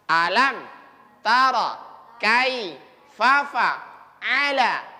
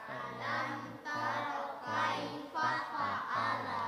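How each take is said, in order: First: The phrase is recited slowly. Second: The phrase is recited fairly fast. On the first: "Coba pelan-pelan" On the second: "Coba agak cepat"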